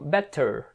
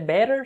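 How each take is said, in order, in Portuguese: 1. É pronunciado com um sotaque marcado e forte. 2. É pronunciado com um sotaque neutro e comum. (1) "Lá eles têm um sotaque meio puxado, então acho que eles falam better" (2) "você vai ver também sendo pronunciado desse jeito, mais desse jeito até"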